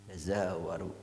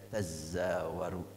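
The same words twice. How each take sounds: First: The z is single, with no doubling. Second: The z is doubled and held longer. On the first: It suggests quick movement. "dengan disembunyikannya satu huruf" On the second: It suggests heavy tossing and turning while asleep. "diidghamkan kepada zai ... Ada berat kalau tasdid"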